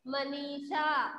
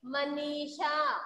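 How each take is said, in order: First: Manisha read slowly with a falling end; slowed-down Manisha. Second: Manisha read slowly, syllables drawn out; slowed-down Manisha. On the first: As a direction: say Manisha slowly and let it fall. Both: Shown as a demonstration. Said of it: "क्या बोलेंगे?".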